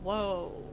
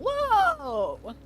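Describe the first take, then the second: First: It sounds sad and downbeat. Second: It sounds excited and upbeat.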